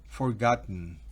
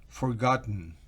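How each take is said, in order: Both takes have the same delivery.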